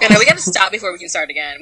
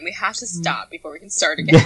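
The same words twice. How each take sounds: First: Quick and loud; fast. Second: Said in the usual way. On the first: Shown as a demonstration. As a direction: rattle it off quickly.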